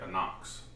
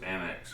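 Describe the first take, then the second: First: The last syllable sounds like 'nox'. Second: The last syllable sounds like 'nex'. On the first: The speaker calls it right. "it's the Microtech Anox" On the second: The speaker calls it wrong. "I used to pronounce it Annex"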